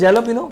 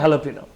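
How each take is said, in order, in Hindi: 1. शब्द की शुरुआत J ध्वनि से होती है। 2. शब्द की शुरुआत H ध्वनि से होती है। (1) "लिखेंगे, जैलोपिनो" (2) "पढ़ेंगे हैलोपिनो"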